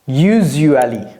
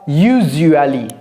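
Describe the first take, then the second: No difference in how they are said.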